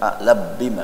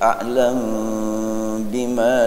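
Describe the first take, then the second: First: The m merges into the following b sound. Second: The m is kept, unvoweled, before the b. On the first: The speaker calls it wrong. "Prakteknya bukan a'lab bima, bukan" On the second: The speaker calls it right. "Jadi disukunkan mimnya"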